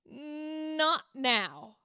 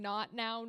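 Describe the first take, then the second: First: The first 'n' is held and drawn out. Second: The first 'n' is short and crisp. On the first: The character has become truly vulnerable. "you go not now. You hold the N" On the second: The character is still holding back emotionally. "instead of you saying not now"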